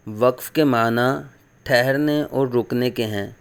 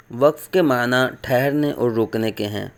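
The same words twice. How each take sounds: The two takes are said the same way.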